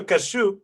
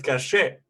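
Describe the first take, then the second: First: "cashew" ending in an "oo" sound; like the nut. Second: "Cachet" ending in an "ay" sound; French pronunciation. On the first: [name] comparing his name, "cashew" ending in "shoo". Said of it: "similar to cashew". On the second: [name] correcting the nut comparison, "Cachet" ending in "shay". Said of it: "but Cachet". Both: Shown as a demonstration.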